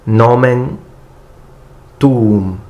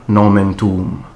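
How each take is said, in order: First: The words are spoken very slowly and separately. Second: The words are spoken quickly at full speed. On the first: "Then I will read it very slowly, breaking each single word" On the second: "the first time I will read the prayers in full speed"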